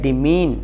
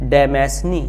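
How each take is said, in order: First: Several letters are silent, giving two short syllables. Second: Every written letter is sounded, including the s. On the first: The speaker calls it right. "इसका pronunciation है" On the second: The speaker calls it wrong. "सीधी सीधी तरह से उर्दू हिंदी की तरह से देखें तो पढ़ने में ये आता है"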